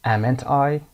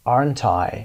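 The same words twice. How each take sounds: First: Said in the usual way. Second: Falling tag; correct form. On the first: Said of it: "که اشتباه هست". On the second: Shown as a demonstration. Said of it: "aren't I استفاده بکنید".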